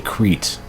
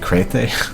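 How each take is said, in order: First: The word has its usual English pronunciation. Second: The word has a different, Greek-style pronunciation. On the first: "that might be just an English pronunciation of that word" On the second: "It could be"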